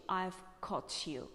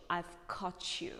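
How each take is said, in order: First: "caught you" with a crisp T before "you"; slow British "caught you"; British released T. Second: "caught you" run together as "caw-chu"; slow American "caught you", sounds joined; American blended T and Y. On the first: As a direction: keep T and Y apart in "caught you". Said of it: "But British accent". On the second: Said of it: "closer to American accent". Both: Shown as a demonstration.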